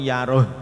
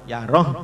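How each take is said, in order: Both takes have the same delivery.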